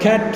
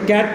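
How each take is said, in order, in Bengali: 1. প্রথম ব্যঞ্জনে একটি জোরালো শ্বাসের ঝলক আছে। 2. প্রথম ব্যঞ্জনে কোনো শ্বাসের ঝলক নেই। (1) "মহাপ্রাণিত হয়ে উচ্চারিত হয়" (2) "এটা ক্যাট নয়"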